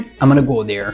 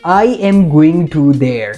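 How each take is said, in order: First: It is said in a native English accent. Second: It is said in an Indian English accent. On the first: The speaker calls it right. "With correct pronunciation ... दूसरा वाला गोरो का accent था" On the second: The speaker calls it wrong. "पहला वाला हमारा accent था"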